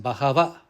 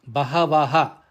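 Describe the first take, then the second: First: It ends on a plain vowel, no ha. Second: It ends with an extra breathy ha sound. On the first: The speaker calls it right. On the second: The speaker calls it wrong.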